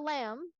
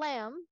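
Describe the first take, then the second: First: The vowel sounds like the one in cat. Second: The vowel sounds like the one in cat.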